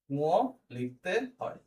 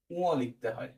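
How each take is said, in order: First: উঁ, লিখতে, হয় drawn out and separated by pauses; slow dictation. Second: Said in the usual way. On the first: Shown as a demonstration. Teacher repeating the rule for note-taking, slow dictation.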